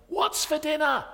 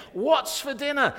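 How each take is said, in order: First: High, loud calling up the stairs; husband shouting up to his wife, high and loud; shouted question. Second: High, loud shout right behind her; husband shouting right behind his wife, high and loud. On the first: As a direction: yell it up from the attic. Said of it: "he shouted to his wife". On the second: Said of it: "he shouts as loud as he can". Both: Retold or imitated.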